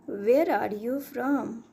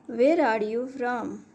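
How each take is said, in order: Both takes have the same delivery.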